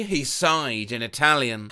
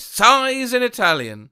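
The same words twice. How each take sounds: First: Said in the usual way. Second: Sighs in Italian read with a light, hammed-up Italian lilt; mock Italian sigh. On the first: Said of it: "How does one sigh in Italian?". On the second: Shown as a demonstration. Showing how one sighs in Italian, mock Italian lilt. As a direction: playfully sigh the words the Italian way. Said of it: "Like this".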